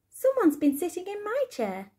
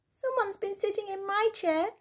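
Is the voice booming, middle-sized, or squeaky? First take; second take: middle-sized; squeaky. First: It is said in a middle-sized voice. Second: It is said in a squeaky little voice.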